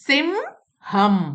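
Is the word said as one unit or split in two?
split. The two syllables are said apart with a break. The speaker calls it wrong. "അതിനെ separate വായിക്കാൻ പാടില്ല"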